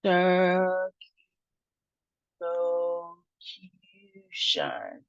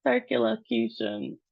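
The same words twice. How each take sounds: First: "Circumlocution" extremely slow, broken into syllables; slow sounding-out. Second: Said in the usual way. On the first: Shown as a demonstration. Teacher leading learners through a hard word, slow sounding-out. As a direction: pull "Circumlocution" apart with long held syllables and gaps. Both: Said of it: "So let's try it".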